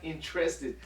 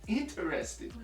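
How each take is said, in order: First: It is said without a vowel before the r. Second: It is said with a vowel before the r. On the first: The speaker calls it wrong. "It's not interested. I N T R" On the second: The speaker calls it right. "It's I N T E R. Interested"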